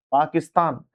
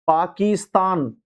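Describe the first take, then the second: First: पाकिस्तान with a quick short "ki"; short vowel. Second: पाकिस्तान dragged out as "paa-keee-staan"; wrong long vowel. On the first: Teacher giving students the correct form, पाकिस्तान with short i. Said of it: "छोटी की मात्रा लगेगी". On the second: Teacher showing students the misspelling, पाकिस्तान with long ee. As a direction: stretch the ki of पाकिस्तान to a slow kee. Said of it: "बड़ी की मात्रा नहीं लगेगी". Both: Shown as a demonstration.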